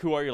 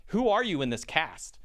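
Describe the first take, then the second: First: Said in the usual way. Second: "Who are you in this cast?" asked pointedly, picking out the role; imitated puzzled query, leaning on "Who are you in this cast?"; pointed question. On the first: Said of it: "not like, "Who are you?" Like". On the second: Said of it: "not like, "Who are you?".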